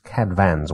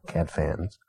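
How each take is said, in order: First: "Cadfan's" with the f said as v; Welsh pronunciation. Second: "Cadfan's" with a plain English f; wrong reading. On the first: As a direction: say "Cadfan's" as "CAD-van's". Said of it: "There is some pronunciation guide". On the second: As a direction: say "Cadfan's" as "cad-fans". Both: Shown as a demonstration.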